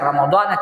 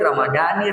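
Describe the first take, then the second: First: The word ends with an 'a' vowel. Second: The word ends with an 'i' vowel. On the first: The speaker calls it right. "dibaca Ramadana" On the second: The speaker calls it wrong. "tidak boleh Ramadani"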